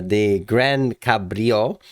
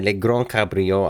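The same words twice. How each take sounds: First: Said in the usual way. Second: Put-on slow, amateur French accent on "Le Grand Cabrio". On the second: Host muddling Italian car names, "Le Grand Cabrio" in French accent. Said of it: "then the French kicks in".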